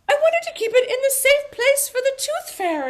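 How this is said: It is said in an English accent.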